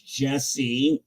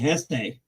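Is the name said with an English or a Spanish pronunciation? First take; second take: English; Spanish. First: The name is said with an English pronunciation. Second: The name is said with a Spanish pronunciation. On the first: This is the name used in America. "my English name is Jesse" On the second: This is the name used in Spanish. "My Spanish name would be Heste"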